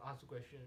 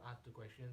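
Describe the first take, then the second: No difference in how they are said.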